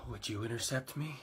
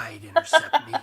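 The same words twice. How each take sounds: First: Low, soft question; creepy self-admiring murmur. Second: High, loud, through laughter; manic laughing boast. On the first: Raptor musing about being intercepted, low and soft. Odd jet asks itself creepily. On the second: Raptor answering its own question, high laughing shout. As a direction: burst out laughing on the words. Jet cackling at its own line. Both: Acted.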